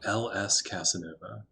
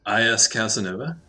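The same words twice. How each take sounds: First: "L S Casanova" said as the letters ell ess, softer; corrected reading "L S Casanova", letters L and S; corrected name. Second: "I S Casanova" said as the letters eye ess, rising at the end; first try at "I S Casanova", letters I and S; misread name. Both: Shown as a demonstration. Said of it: "L S, L S Casanova".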